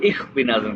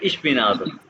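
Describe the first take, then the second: First: The first word ends with a 'kh' sound. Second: The first word ends with a 'sh' sound.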